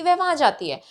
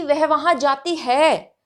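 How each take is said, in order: First: Said in the usual way. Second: Slowed, weight on वहाँ; emphatic statement. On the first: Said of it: "ये तो simple है कि". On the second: Shown as a demonstration. Teacher showing emphasis in Hindi. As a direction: insist she goes there. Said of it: "इसी बात को emphasise करके बोलना हो".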